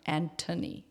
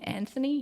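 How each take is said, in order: First: The middle consonant is a plain t sound. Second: The middle consonant is a th sound. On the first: The speaker calls it right. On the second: The speaker calls it wrong.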